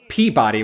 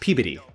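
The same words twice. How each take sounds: First: The name is said the way it is spelled. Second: The name is said quickly, like P B D. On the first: The speaker calls it wrong. "a lot of people would say Peabody" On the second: The speaker calls it right. "when it's Peabody. P B D"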